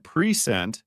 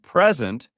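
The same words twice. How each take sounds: First: "present" as pree-ZENT, weight on the second syllable; verb stress, second syllable. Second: "present" as PREZ-ent, weight on the first syllable; noun stress, first syllable. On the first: Teacher explaining the verb, "present" stressed on the second syllable as pree-ZENT. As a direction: say "present" with a long ee, then stress "sent". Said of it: "you are talking about a verb". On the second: Teacher explaining the noun, "present" stressed on the first syllable as PREZ-ent. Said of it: "you are talking about a noun". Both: Shown as a demonstration.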